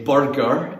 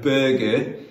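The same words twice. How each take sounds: First: Said in the usual way. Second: "burger" in a Geordie accent with a rising end; Newcastle accent. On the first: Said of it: "they would laugh when I would say burger". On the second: Shown as a demonstration. Youth leader contrasts his Scottish with the local way, Geordie accent. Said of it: "instead of burger".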